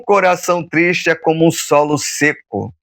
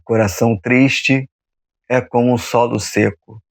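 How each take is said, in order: First: It is spoken at a normal, quicker pace. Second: It is spoken slowly and calmly, with pauses.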